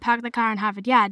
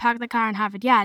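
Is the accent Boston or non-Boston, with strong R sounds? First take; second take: Boston; Boston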